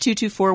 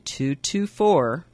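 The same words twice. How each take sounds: First: The number is said at normal speed. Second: The number is said more slowly.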